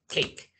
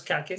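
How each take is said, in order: First: "cake" said "keik", one syllable, silent final E; correct English. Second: "cake" said "ka-ke" with the final E pronounced; wrong Spanish reading. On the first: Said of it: "sino cake". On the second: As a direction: read "cake" like Spanish, two syllables "ka-ke". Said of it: "Por eso no decimos cake". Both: Shown as a demonstration.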